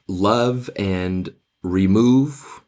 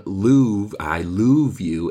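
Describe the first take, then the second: First: Said in the usual way. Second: Louvre said loov, long oo, rhyming with remove; I Louvre you, slow, with loov for love; old pronunciation of love. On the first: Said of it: "the way they pronounced love back in the day". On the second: Shown as a demonstration. Teacher demonstrating how Elizabethans said love, loov. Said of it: "the way they pronounced love back in the day was".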